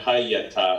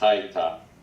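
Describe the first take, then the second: First: The word is said with three syllables. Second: The word is said with two syllables. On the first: The speaker calls it wrong. "Not Hayata" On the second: The speaker calls it right. "It's Haita"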